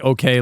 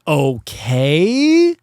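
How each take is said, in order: First: It sounds calm and reassuring. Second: It sounds confused and questioning.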